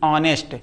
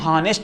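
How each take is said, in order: First: The word begins directly with a vowel sound. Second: The word begins with an audible h sound. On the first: The speaker calls it right. "ऑनेस्ट पढ़ते हैं" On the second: The speaker calls it wrong. "इसको हम हॉनेस्ट नहीं कहते"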